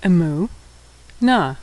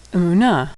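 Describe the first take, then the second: First: Syllable by syllable. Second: Said in the usual way. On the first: Shown as a demonstration. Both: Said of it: "and hey".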